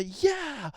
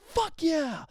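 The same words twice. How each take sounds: First: Much higher single yeah; a bright demo cheer; excited yeah. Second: Much higher, punchy cheer; excited cheer. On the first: Demo for listeners, high excited yeah. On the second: Demo for listeners, high punchy cheer. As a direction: show it's more exciting. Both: Shown as a demonstration. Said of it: "fuck yeah sounds way more exciting".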